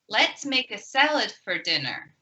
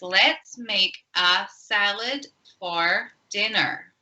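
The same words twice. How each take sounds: First: The sentence is said quickly with a small 'for'. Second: The sentence is said at a slower, careful pace.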